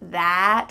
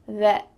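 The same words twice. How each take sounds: First: The vowel is a clear open 'ah' sound. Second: The vowel is a relaxed, reduced 'eh' sound. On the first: "with a clear ah sound?" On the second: "we often change that vowel sound to be an E"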